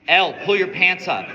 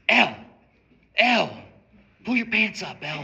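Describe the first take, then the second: First: It is said loudly. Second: It is said fairly quietly.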